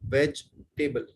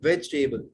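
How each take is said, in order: First: The word is said with a gap inside. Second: The word is said smoothly in one go. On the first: The speaker calls it wrong. "बीच में gap नहीं देना" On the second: The speaker calls it right. "इसको एक साथ बोलना है"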